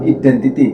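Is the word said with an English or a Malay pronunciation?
Malay. It is said with Malay-style sounds. It is not mixed with English. The speaker calls it right. "Beliau menyebut identity"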